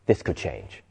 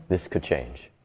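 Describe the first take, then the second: First: Much softer and lower inner murmur; quiet inner voice. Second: Much softer and lower, slower repeat; quiet inner voice. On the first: The hopeful part inside despair, speaking soft and low. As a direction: say it low, as a hidden hope. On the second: The hopeful part inside despair repeating itself, soft and low. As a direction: let the hope settle, low and soft. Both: Retold or imitated. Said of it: "still going like".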